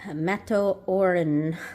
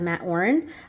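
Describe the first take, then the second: First: The name is said with Japanese katakana sounds. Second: The name is said with plain English sounds.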